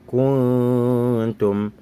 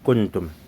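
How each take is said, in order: First: The N is hidden, blending into a nasal sound. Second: The N is pronounced fully and clearly. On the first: The speaker calls it right. "quand ça subit une modification" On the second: The speaker calls it wrong. "On ne va pas dire kuntum. Si on dit kuntum, le nun, on sort simplement"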